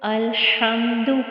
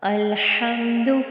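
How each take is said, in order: First: The h is a tight raspy sound from the throat. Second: The same.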